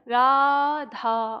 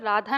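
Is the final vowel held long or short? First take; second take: long; short. First: The final vowel is stretched out and held long. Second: The final vowel is said at normal length. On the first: The speaker calls it right. "राधा इस तरह से बोलेंगे" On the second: The speaker calls it wrong. "राधा न कह के"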